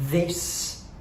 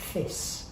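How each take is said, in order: First: The th sound is voiced, as normal. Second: The th sound is unvoiced instead.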